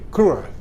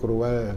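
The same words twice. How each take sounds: First: The word is said with stress. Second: The word is said without stress. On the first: The speaker calls it right. "tapi cruel ... bertekanan" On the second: The speaker calls it wrong. "Bacanya nggak boleh cruel"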